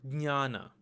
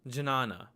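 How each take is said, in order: First: The word begins with a d-n-y sound. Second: The word begins with a j-n sound. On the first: This is how it is said in Marathi. "which is pronounced as dnya" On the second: This is how some Sanskrit teachers read it. "Some Sanskrit teachers will actually read this as jna"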